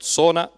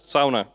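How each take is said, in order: First: The word is said with an English pronunciation. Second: The word is said with a Finnish pronunciation. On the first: The speaker calls it wrong. "not sauna" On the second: The speaker calls it right. "but sauna"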